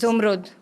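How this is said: It starts with 'zu' and ends in 'rud'. This is how people from Turbat and Panjgur say it. "मुझे बोलते हैं जुमरुद"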